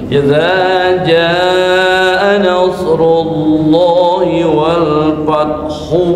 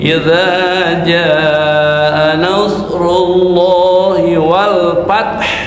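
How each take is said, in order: First: The final vowel is voiced and joined onward. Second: The last word ends cut short, then stops. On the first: "contohnya disambung" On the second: "kalau berhenti"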